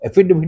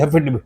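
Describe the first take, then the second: First: The word begins with a plain vowel. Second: The word begins with an h sound. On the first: The speaker calls it right. "वास्तव में एफिडेविट ही होता है" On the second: The speaker calls it wrong. "वो गलत बोल रहे हैं"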